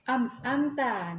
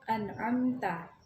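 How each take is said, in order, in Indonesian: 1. Suku kata pertama berakhir dengan bunyi m. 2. Suku kata pertama berakhir dengan bunyi n. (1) "sering terjadi kekeliruan saat membaca An'amta. Terkadang ada yang membaca am-amta" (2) "yang betulnya itu An'amta"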